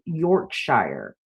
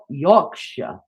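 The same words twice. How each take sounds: First: It is said in an American accent. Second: It is said in a British accent.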